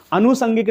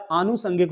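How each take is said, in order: First: अनुसंगिक said with a short a at the start; अनुसंगिक with short opening अ; wrong short first vowel. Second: आनुसंगिक with a long aa at the start; आनुसंगिक with long opening आ; correct long first vowel. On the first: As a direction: say अनुसंगिक as the mistaken short-a form. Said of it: "अनुसंगिक नहीं होता है". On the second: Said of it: "आनुसंगिक होता है". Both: Shown as a demonstration.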